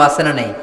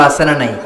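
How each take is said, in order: Both takes have the same delivery.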